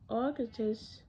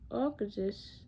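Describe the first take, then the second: No difference in how they are said.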